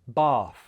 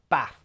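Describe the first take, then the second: First: The vowel is long, unlike in trap. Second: The vowel is short, like in trap. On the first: "southern accents ... we say the ah in these words with an r sound" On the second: "northern accents ... the same as the ah in trap"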